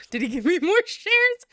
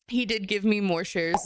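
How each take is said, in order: First: Loud, high question broken by a laugh; incredulous question. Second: Said in the usual way. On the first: Real, not acted. Streamer questioning chat about boyfriend's shares, loud laughing incredulity. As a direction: burst out in laughing disbelief, voice climbing.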